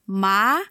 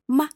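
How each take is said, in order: First: The pitch rises toward the end. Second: The syllable is very short and light. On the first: "Second tone is going up" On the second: "the neutral tone is very short and light"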